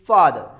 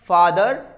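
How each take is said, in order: First: The final r sound is left silent. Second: The final r sound is clearly pronounced. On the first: The speaker calls it right. "Word के आखिर में अगर आर आता है तो आर को हम नहीं प्रोनाउंस करेंगे" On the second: The speaker calls it wrong. "It's a not a फादर"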